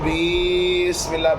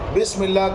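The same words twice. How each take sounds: First: A short sound is stretched out long. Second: The sounds are said at normal length. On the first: The speaker calls it wrong. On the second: The speaker calls it right.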